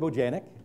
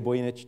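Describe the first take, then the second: First: The surname is said with an anglicized pronunciation. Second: The surname is said with its original pronunciation. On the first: "it was anglicized for a long time" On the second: "aka Boyanich"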